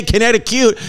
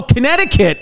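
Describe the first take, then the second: First: Connecticut ending in "cute"; joke mispronunciation. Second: Said in the usual way. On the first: Shown as a demonstration. Joke pronunciation after A K A.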